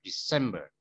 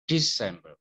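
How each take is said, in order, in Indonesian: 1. Tekanannya ada pada suku kata kedua. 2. Tekanannya ada pada suku kata pertama. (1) "Yang ditekan suku kata kedua" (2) "bukan December"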